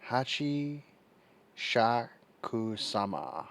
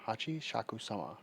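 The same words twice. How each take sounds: First: "Hachi Shakusama" spelled out slowly, syllable by syllable; careful pronunciation. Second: "Hachi Shakusama" said smoothly, stress on Hachi; pronunciation demo. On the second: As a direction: say "Hachi Shakusama" fluently, as settled. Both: Shown as a demonstration. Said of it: "That's how you say it".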